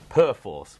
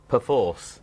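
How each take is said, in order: First: The first syllable is said in full. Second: The first syllable is reduced, like p'force. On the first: The speaker calls it wrong. "I was pronouncing it Perforce, which is not correct" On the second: The speaker calls it right. "to get it straight, it is pronounced Perforce"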